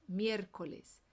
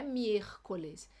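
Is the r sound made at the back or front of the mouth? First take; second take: front; back. First: The r is a tongue tap behind the teeth. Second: The r is a harsh sound from the throat. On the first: The speaker calls it right. "É aqui na frente da boca" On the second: The speaker calls it wrong. "Não é miércoles. É do J"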